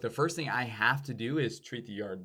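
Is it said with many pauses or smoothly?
smoothly. It flows smoothly without extra pauses.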